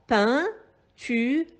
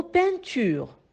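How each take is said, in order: First: "Peinture" split as pein, tu, re, with pauses; syllable by syllable. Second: Said in the usual way. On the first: Shown as a demonstration. Teacher counting out three syllables for pupils, syllable by syllable. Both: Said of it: "composé de trois syllabes".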